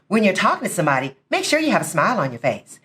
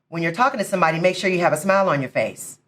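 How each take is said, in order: First: It is said smiling, with a bright voice. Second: It is said with a frown, unsmiling.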